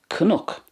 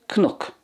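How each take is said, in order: Both takes have the same delivery.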